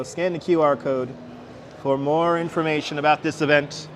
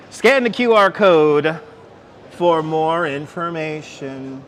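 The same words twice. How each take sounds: First: Said in the usual way. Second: "Scan the Q R code" read slow and louder, like a public notice; mock sign announcement. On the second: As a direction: boom it out like a PA announcement. Reading the sign aloud, then repeating.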